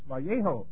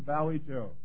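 First: The name is pronounced with Spanish sounds. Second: The name is pronounced like English 'Valley Joe'. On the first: The speaker calls it right. "It's a Spanish name. It's Vallejo" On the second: The speaker calls it wrong. "it's not really Valley Joe"

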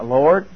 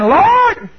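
First: It is said calmly and quietly. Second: It is said loudly and urgently.

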